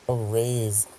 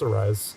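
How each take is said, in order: First: The second syllable sounds like 'raise'. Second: The second syllable sounds like 'rise'. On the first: The speaker calls it wrong. "said, "Oh, a raise," and it's like, what? No" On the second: The speaker calls it right. "It's Arise"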